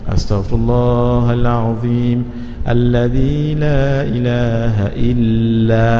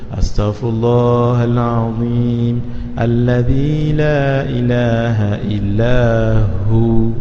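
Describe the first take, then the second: First: The phrase stops before the final 'hu'. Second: The phrase stops after the final 'hu'. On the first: The speaker calls it wrong. "Itu yang biasa kita buat" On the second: The speaker calls it right. "kita berhenti kat hu sama-sama"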